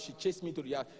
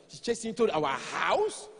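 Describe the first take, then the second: First: Said in the usual way. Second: Slow questioning with a big rise on house; mock-shocked question; incredulous echo. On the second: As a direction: echo it as a disbelieving wife. Wife echoes him in disbelief.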